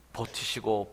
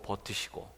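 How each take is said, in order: First: Said in the usual way. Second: Barely voiced, dying away; fading whisper. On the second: Shown as a demonstration. Pastor echoing Jesus' endurance, whispered fade. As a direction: let "버티시고" fade into a whisper.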